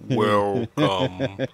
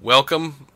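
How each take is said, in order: First: The word is said slowly. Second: The word is said quickly. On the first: It is the speaker's natural voice. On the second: It imitates a recording played at double speed.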